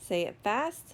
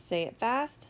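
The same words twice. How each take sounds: The two takes are said the same way.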